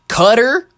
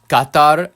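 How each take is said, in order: First: The word sounds like 'cutter'. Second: The word does not sound like 'cutter'.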